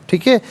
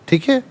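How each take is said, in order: Both takes have the same delivery.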